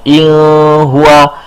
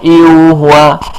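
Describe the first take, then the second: First: An l sound replaces the n before huwa. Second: A vowel sound replaces the n before huwa. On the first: "bukan il huwa" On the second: "bukan iu huwa"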